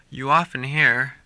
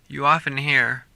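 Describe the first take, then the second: Both takes have the same delivery.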